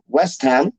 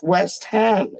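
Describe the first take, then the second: First: "West Ham" run together as one word; no gap between "West" and "Ham"; wrong pronunciation. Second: "West Ham" slowly, as two separate words; a drawn-out "West", then a full "Ham"; correct pronunciation. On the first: Fan showing how people get it wrong, words run together. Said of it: "It's not West Ham". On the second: Fan correcting how people say it, two slow words. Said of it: "It's West Ham". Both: Shown as a demonstration.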